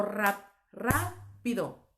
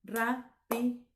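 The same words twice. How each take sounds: First: Slow "rápido" split as ra, pause, pido; false start, then "rápido" in two chunks, ra - pido; división incorrecta. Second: Slow "Rápido" as ra - pi - do; three separate beats on "Rápido", ra, pi, do; división silábica correcta. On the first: ("rápido" partido en ra - pido) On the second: ("Rápido" lento, en ra - pi - do) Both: Shown as a demonstration.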